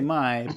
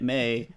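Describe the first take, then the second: First: The vowel sounds like the one in 'eye'. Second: The vowel sounds like the one in 'day'. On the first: This matches the spelling of similar names. "I always say Mai because that's what it should be" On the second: This is how the show says it. "and yet May"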